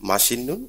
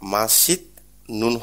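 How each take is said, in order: First: An n sound comes before 'neun'. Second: A t/d sound comes before 'neun'. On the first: The speaker calls it right. "তবাচ্ছিমটাও নিউনের মতো উচ্চারণ করবে" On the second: The speaker calls it wrong. "এখানে মাসিদ নুন হবে না"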